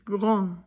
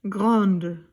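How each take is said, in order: First: The word ends without a d sound. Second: The word ends with a d sound. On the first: It is the masculine form. "here we do not say the D" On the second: It is the feminine form. "and here we do"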